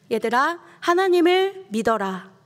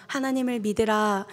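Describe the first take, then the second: First: 하나님을 믿어라 called out high and loud as a firm order; commanding. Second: Said in the usual way. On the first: Shown as a demonstration. Preacher showing Jesus ordering the disciples, loud command. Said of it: "명령형이죠". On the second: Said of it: "이런 뜻이 아니라".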